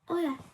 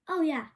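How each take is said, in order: First: It is said in a sad, downcast tone. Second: It is said in a cheerful, upbeat tone.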